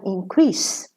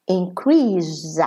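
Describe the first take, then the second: First: "increase" ending in a voiceless hiss, in-CREES. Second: "increase" ending in a buzzed Z, in-CREEZ; voiced Z ending. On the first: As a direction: say "increase" with a clear final S. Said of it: "the S is pronounced sa". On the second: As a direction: say "increase" with the S as a drawn-out Z. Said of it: "the S is pronounced za". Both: Shown as a demonstration.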